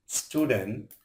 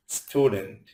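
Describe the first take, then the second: First: student divided as stew, dent, ending on a rise; split into syllables. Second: Said in the usual way. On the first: Shown as a demonstration. Teacher showing learners what a syllable is, split into syllables. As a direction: say student in two beats with a rising end. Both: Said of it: "যতটুকু অংশ একসাথে উচ্চারণ করা".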